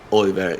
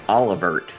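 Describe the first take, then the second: First: The name is said in a French-like way. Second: The name is said with an anglicized pronunciation. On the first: The speaker calls it right. "kind of French kind of. ... I give it a little bit of a third syllable" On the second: The speaker calls it wrong. "I used to say like Olivert, which is definitely not how that's pronounced"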